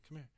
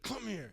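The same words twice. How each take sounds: First: It is said very softly, barely audible. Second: It is said at a normal, clear volume.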